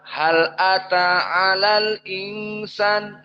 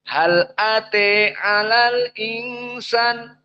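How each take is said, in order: First: The vowel after t is an open a. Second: The vowel after t leans toward e. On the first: "Kalau jumhur dibaca" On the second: "qiraah Al-Kisai apa bacanya?"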